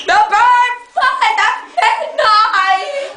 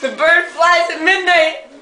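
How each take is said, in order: First: Drawn-out, higher spy password; slow mock-mysterious code phrase; slow secret code phrase. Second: Said in the usual way. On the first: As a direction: stretch the words out like a secret agent. Spy code phrase repeated slowly.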